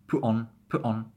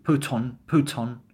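First: "put on" as pu' on, catch between words; glottal T. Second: Said in the usual way. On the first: Shown as a demonstration. Teacher extending the glottal drill, T-less "put on". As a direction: say "put on" with the T stopped in the throat. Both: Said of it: "Just glottal it".

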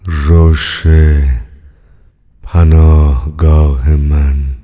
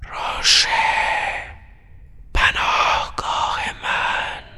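First: Lower, louder and very slow; a deep voice booming from far off; slow resonant chant from afar; deep distant voice. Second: Whispered, far-off and faint; a ghostly voice whispering down the line; hushed echo from afar; distant whisper. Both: A narrator's reading. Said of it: "صدای بمی از دوردست".

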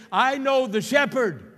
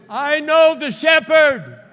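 First: High, loud pulpit cry; preacher's loud declaration. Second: Very high, slow, booming shout; full-force preacher's shout. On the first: Preacher giving the church words to say, loudly declaring. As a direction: proclaim it with raised voice, leaving room to build. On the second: Preacher repeating the declaration to the church, shouting full force. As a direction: shout it out at the top of your voice, drawn out. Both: Real, not acted.

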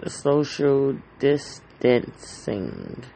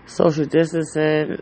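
First: Social distancing stretched out slowly, each word leaned on; slow drawn-out repeat. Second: Said in the usual way. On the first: Shown as a demonstration. Podcaster warning listeners about the virus, slow and drawn out.

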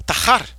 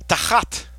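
First: "Tahar" said by mistake, quickly corrected; mispronounced word. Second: "Tachat" with a guttural ch, rising; corrected pronunciation. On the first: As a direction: slip out "Tahar" before the right word. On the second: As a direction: correct yourself and say "Tachat" with the throat ch. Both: Shown as a demonstration. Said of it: "I mean, I'm sorry".

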